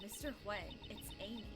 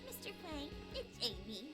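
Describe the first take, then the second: First: It is said in his natural voice. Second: It is said in a put-on voice for Amy.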